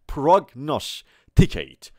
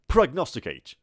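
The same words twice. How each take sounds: First: The word is said slowly. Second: The word is said quickly. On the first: "آرومتر" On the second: "تندتر میگیم"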